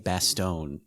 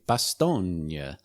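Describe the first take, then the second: First: It is said the usual English way. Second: It is said the Belgian way. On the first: This is how the speaker says it. "they don't say Bastogne in the audiobook" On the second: This is how the audiobook says it. "which I think might be the correct way of pronouncing it in like Belgian"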